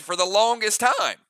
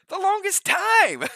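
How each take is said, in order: First: Excited voice creeping up into a squeak; squeaky voice slip. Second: Very high, slow mock squeak; squeaky Urkel. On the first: Real, not acted. Gamer excited about new gear, voice slipping squeaky. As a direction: let excitement push the voice up. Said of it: "my voice just went up, like, really squeaky". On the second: Streamer mocking own excited slip, squeaky Urkel voice. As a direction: exaggerate the squeak, drawn out and far higher. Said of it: "went up, like, really squeaky, like Urkel".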